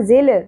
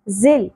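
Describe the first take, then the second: First: The final l is released with an echoing bounce. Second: The final l is held without any echoing bounce. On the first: The speaker calls it wrong. "ذل نہیں پڑھنا" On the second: The speaker calls it right. "لام ساکن پہ قلقلہ نہیں کرنا"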